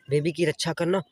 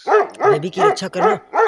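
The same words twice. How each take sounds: First: Said in the usual way. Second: baby की रक्षा करना higher, louder and slow, baby stressed; emphatic order. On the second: Acted. Mother orders the dog to guard the baby, baby की रक्षा करना stressed high and slow. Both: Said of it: "तुम यहीं पर रुकना".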